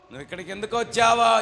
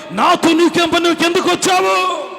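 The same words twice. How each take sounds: First: Said in the usual way. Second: High, loud demonic protest; strained high yell, last word held; Satan challenging Jesus. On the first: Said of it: "యేసుక్రీస్తుని ఏమంటుంది సైతాను". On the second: Acted. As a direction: shout it as a cornered devil. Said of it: "ఏమని మాట్లాడుతుంది యేసయ్యతో".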